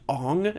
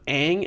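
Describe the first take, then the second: First: The vowel sounds like the one in 'on'. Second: The vowel sounds like the one in 'an'. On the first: This is how the film said the name. The speaker calls it wrong. "they pronounced his name Ong" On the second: This is how the name should be said. The speaker calls it right. "instead of Aang"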